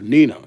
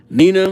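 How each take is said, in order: First: It is said in a lower voice. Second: It is said in a high-pitched voice.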